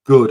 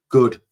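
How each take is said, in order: First: "good" stressed and drawn out with a falling tune. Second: "good" leaned on hard and louder, falling; stress on good. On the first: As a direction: hit "good" firmly, then carry on. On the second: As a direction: punch the word "good". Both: Shown as a demonstration. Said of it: "I emphasize the word good".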